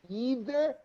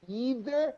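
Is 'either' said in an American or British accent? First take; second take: American; American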